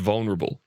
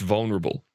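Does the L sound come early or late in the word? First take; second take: early; early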